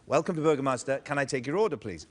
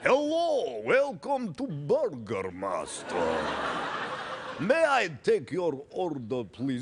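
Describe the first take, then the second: First: It is said in his normal voice. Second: It is said in a Dracula voice.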